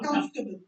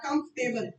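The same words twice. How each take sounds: First: The ending is reduced, without a 'table' sound. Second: The ending is a full, clear 'table' sound. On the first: The speaker calls it right. "it's comfortable" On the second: The speaker calls it wrong. "it's not comfortable टेबल नहीं बनाना"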